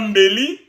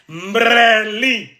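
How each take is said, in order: First: The word is said without an r sound. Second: The word is said with an r after mb. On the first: This is the usual Lingala pronunciation. "Comme on dit un couteau en Lingala Mbeli" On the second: This is how the Bayombe pronounce it. "Nous, les Bayombe, on va entendre Mbre, Mbreli"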